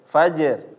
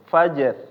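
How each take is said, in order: Both takes have the same delivery.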